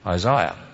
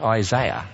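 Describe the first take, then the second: First: The middle syllable has an 'eye' sound. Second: The middle syllable lacks an 'eye' sound. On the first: The speaker calls it right. "Notice the I is in the middle" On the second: The speaker calls it wrong. "Not Isaiah"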